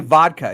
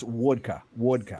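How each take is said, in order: First: Said in the usual way. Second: "wodka" with W for V, pitched low; Russian "wodka". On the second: Shown as a demonstration. Correcting friend's Russian, low "wodka". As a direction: drop low and round it into "wodka". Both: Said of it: "it's not even vodka".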